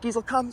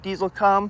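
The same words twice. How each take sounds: First: It is said in an excited, lively tone. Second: It is said in a flat, unexcited tone.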